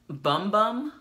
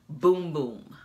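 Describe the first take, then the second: First: The vowel is short, as in 'bum'. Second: The vowel is long, as in 'boom'. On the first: The speaker calls it wrong. "you may be persuaded to say Bum Bum" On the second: The speaker calls it right. "it says it is pronounced Boom Boom"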